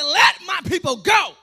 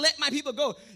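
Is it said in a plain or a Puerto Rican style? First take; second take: Puerto Rican; plain. First: It is said with Puerto Rican flavor. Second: It is said plainly, without Puerto Rican flavor.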